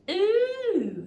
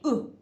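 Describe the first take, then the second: First: The vowel sound is long and drawn out. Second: The vowel sound is short and clipped. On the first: "one's a bit like you're like someone's pair of shoes" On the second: "one's a bit like you've been bopped in the belly"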